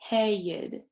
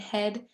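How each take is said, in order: First: The vowel breaks into two parts. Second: The vowel is one short sound.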